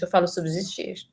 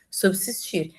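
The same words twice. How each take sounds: First: "subsistir" with a voiced Z, "sub-zistir"; everyday "subsistir" as "subzistir"; pronunciation with Z sound. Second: "Subsistir" said with a hard S sound; dictionary "Subsistir" with S; pronunciation with S sound. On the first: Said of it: "Eu não falo, gente, eu falo subsistir". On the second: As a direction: say "Subsistir" with a crisp S, as in "sub-sistir". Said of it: "com som de dois S's". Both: Shown as a demonstration.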